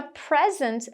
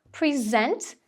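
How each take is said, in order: First: "present" as PREZ-ent; "present" with strong start, weak end; stress on first syllable. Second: "present" as pri-ZENT, rising; "present" slow, with strong second syllable; stress on second syllable. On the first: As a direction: lean on PREZ in "present", the noun. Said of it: "sílaba tônica marcada ali na primeira". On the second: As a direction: lean on ZENT in "present", the verb. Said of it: "a sílaba tônica vai ser a segunda". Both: Shown as a demonstration.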